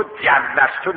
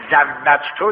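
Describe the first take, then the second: First: جوزتو said as "jawwaztu", j first, z last, slowly; slow mock of the wrong form جوزتو, letters swapped. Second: زوجتو said as "zawwajtu", z first, then w and j; teacher models the correct contract word زوجتو; correct Arabic form. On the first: Teacher warns students against the mistaken جوزتو, said slowly. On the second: Teacher shows students the right زوجتو, "zawwajtu", clearly. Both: Shown as a demonstration. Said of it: "به جای زوجتو، جوزتو نگه".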